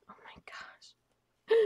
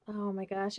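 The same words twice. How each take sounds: First: Slow breathless whisper of delight; awed whisper. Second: Said in the usual way. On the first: Real, not acted. Opening a gift from a friend, a slow awed whisper. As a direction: hush it out like you can't believe it. Unboxing a gift, hushed awe.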